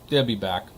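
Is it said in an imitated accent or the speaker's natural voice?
imitated accent. It is said in an imitated action-star accent.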